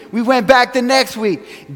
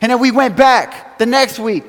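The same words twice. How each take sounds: First: Slow it down, each word weighed; slower emphatic repeat. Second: Said in the usual way. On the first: Real, not acted. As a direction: repeat it slowly so it lands.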